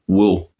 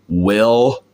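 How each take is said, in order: First: It is said in a Cockney accent. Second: It is said in an American accent. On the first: "You say it like, with, w, w, will" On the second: "you don't say it like an American, like, will, you know, like with the tongue"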